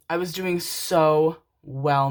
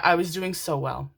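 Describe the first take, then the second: First: "so" drawn out long and loud; slow the line, stretching "so"; stress on "so". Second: Said in the usual way. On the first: Real, not acted. Telling viewers how she coped, heavy drawn-out stress on "so".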